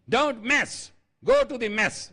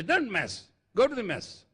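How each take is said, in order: First: High, loud drill command; army trainer's order. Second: Army reprimand. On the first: Army trainer reprimanding recruits, high loud order. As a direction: imitate a barked army reprimand. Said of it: "they used to say". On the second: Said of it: "That was the polite reprimand we used to get". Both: Retold or imitated.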